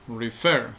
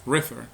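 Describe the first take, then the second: First: Refer with the stress on FER; "refer" said correctly as re-FER, second syllable strong. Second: Refer wrongly stressed as RE-fer; mis-stressed "refer", strong RE and weak fer; stress on first syllable. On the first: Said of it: "la sílaba con mayor fuerza de voz". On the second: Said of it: "no decimos refer". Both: Shown as a demonstration.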